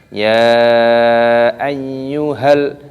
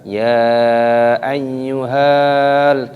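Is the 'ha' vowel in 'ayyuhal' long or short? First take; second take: short; long. First: The 'ha' vowel is kept short. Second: The 'ha' vowel is drawn out long. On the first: The speaker calls it right. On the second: The speaker calls it wrong. "tidak dibaca ya ayyuhal, tidak seperti itu"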